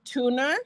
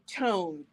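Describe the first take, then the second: First: It is two syllables ending in an uh. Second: It is one syllable ending in an n. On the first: This is how the owner of the name says it. "But she pronounces it tuna" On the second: This is how the spelling would normally be read. "it's spelled how we would say tone"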